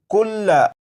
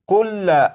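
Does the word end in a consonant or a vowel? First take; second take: vowel; vowel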